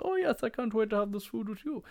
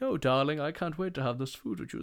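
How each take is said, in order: First: Very high, put-on posh falsetto; hammed-up high-pitched posh diner; affected well-heeled companion. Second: Slightly high, gushing society diner; polished Range Rover type gushing to their date; affected well-heeled diner. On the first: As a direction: echo them in a silly high society voice. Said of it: "polished Range Rovers and they're like". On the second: Acted. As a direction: play a mock-posh darling. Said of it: "come out in their polished Range Rovers".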